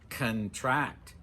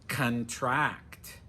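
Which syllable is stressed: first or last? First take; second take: last; last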